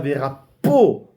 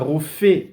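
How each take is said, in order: First: The middle consonant is a hard p sound. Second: The middle consonant is a soft f sound. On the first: The healing is done by a human doctor. "on appuie sur le p" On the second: The healing is done by God. "il n'y a pas de point sur le P, c'est un feu"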